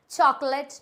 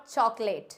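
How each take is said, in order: First: Chocolate slow, as chaak-let, short last vowel; correct pronunciation. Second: Chocolate slow, as chawk-late; wrong pronunciation. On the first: Teacher giving the corrected form, slow chocolate as "chaak-let". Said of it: "हम इसको बोलते हैं चॉकलेट". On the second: Teacher rejecting the common mistake, chocolate as "chawk-late". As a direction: say chocolate slowly with a long "late" ending. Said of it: "not chocolate". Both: Shown as a demonstration.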